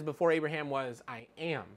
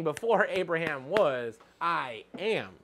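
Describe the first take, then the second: First: Said in the usual way. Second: Slow it down and weigh each word of Before Abraham was; teacher stressing Before Abraham was for the class, slow and weighty; slow, weighty emphasis. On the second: Shown as a demonstration. Teacher to class, slowing on Before Abraham was. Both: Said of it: "No, he was saying".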